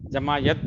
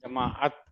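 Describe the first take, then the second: First: The middle of the word has a y sound. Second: The middle of the word has a glottal break. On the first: The word would be spelled with ye. The speaker calls it wrong. "अगर ये होता तब हम यत पढ़ते" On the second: The word is spelled with ain. The speaker calls it right. "आइन के लिए ... क्या पढ़ना है?"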